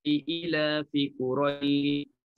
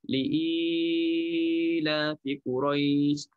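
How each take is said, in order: First: The vowel is held for two beats. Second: The vowel is held for four beats. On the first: "dengan dua harakat"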